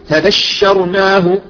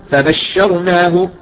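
No difference in how they are said.

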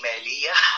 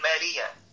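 First: The final h is pushed out with heavy breath. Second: The final h is hidden, ending on a vowel. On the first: "دي خناقة، انت بتتخانق مع الحرف" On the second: "تخفي الحرف وتضيع صفة الهمس"

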